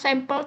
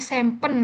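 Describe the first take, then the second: First: The word ends with an L sound. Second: The word ends with an N sound. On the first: "ngomong sampel" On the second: "jadi sempen gitu Kak. Kan L jadi N"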